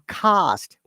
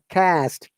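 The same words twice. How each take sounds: First: The vowel is an open, broad 'ah' sound. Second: The vowel is a flat, front 'a' sound. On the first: "that "ah" sound should be pronounced" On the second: "Monica might say"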